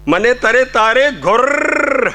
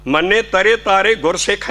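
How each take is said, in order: First: ਗੁਰ said as gur, not ਗੁਰਸਿੱਖ, drawn out slowly and higher; slow, raised recitation ending on a clear ਗੁਰ; correct recitation. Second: Said in the usual way. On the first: Shown as a demonstration. Preacher correcting the line for the congregation, slowly and higher. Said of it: "ਉੱਥੇ ਰਾਰੇ ਨੂੰ ਔਂਕੜ ਹੈ". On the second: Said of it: "ਗੁਰਸਿੱਖ ਨਾ ਨਹੀਂ ਧਾਰਨਾ".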